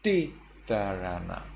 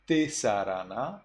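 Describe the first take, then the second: First: Titarana with th in place of S; Burmese reading. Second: Tisarana with an S in the middle; tisarana, plain S sound; standard S reading. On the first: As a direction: break titarana after a sharp ti. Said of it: "you say". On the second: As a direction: say tisarana as written, hissed s. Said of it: "Instead of". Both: Shown as a demonstration.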